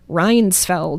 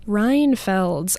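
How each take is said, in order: First: The S sound comes in the middle. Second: The S sound comes at the very end. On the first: The speaker calls it wrong. "the S is at the end, not in the middle" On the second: The speaker calls it right. "I think it sounds exactly how it looks"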